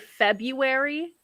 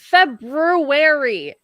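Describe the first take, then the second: First: The R after the B is left out. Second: The R after the B is clearly sounded. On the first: The speaker calls it wrong. "Otherwise, I just say February" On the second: The speaker calls it right. "there's another R"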